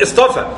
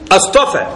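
First: It starts with a light 'i' sound. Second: It starts with a glottal stop and 'a'. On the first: It states a fact. The speaker calls it wrong. "لا يقول اصطفى" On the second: It asks a question. The speaker calls it right. "الله يقولها هكذا"

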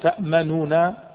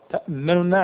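First: The first nun carries a full u vowel. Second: The first nun carries only a brief u hint. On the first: The speaker calls it wrong. "تأمنوا تكون ضمة كاملة" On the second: The speaker calls it right. "تجعل النون صغيرة كذا قصيرة"

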